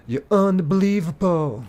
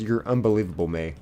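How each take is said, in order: First: High, drawn-out theatrical voice; exaggerated put-on exclamation. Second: Said in the usual way. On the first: Streamer repeats a chat line for laughs, theatrical exclamation. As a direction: stretch it out high, hamming it up.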